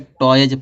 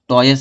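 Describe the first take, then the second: First: The word ends with a buzzing z sound. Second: The word ends with a hissing s sound. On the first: The speaker calls it right. "इसको क्या पढ़ा जाएगा, टॉयज पढ़ा जाएगा" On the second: The speaker calls it wrong. "टॉयस नहीं पढ़ा जाता"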